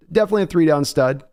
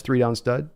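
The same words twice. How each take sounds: First: Definitely punched higher and louder, quick; Definitely said emphatic, fast and louder; stress on Definitely. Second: Said in the usual way. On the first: Real, not acted. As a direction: hammer Definitely home to correct yourself. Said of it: "not a rotational edge".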